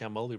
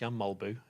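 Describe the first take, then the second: First: The surname ends with an 'ee' vowel. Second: The surname ends with an 'oo' vowel. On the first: The speaker calls it wrong. "his name isn't pronounced Jan Molby, really" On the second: The speaker calls it right. "It's Jan Molbu. Is how you're supposed to pronounce"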